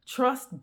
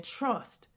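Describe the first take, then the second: First: Said in the usual way. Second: Softly, a quiet divine word; God's soft voice. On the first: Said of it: "God said". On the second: Retold or imitated. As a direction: say it softly as God's calm command. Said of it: "God is saying".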